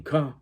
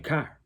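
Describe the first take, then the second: First: "car" said as "cah", no r. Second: "car" with the final r fully sounded. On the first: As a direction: drop the r at the end of "car". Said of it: "but they saying car". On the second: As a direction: hit the r at the end of "car". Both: Shown as a demonstration.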